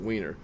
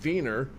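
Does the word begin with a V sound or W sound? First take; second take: W sound; V sound. First: The word begins with a W sound. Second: The word begins with a V sound. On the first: This is the American pronunciation. "if you bring it over here to America, the V sound is actually a W" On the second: This is the original German pronunciation. "if you pronounce it in in German, the W takes the V sound"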